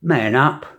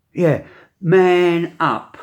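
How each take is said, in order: First: Said in the usual way. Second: Man up drawn out slowly, higher and louder; emphatic repeat. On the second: Shown as a demonstration. To the men listening, man up slow and loud. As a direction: lean hard on man up, slowly. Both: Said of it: "what I'm gonna say to you men is".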